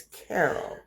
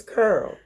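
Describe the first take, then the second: First: "Carol" with a "care" vowel; softer, slower "Carol", as CARE-ul; standard English. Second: "Curl" for Carol, one r-colored syllable; community dialect. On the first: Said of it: "when I'm doing standard English". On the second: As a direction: say "Curl", rhyming with girl. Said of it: "if I want community dialect". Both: Shown as a demonstration.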